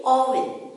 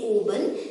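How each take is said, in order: First: "oven" said aw-vin; short O pronunciation. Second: "oven" said oh-ben; long O mispronunciation. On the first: Teacher giving children the taught form, short-O oven. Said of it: "we say oven". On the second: Teacher warning children, long-O oven. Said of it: "We don't say oven". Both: Shown as a demonstration.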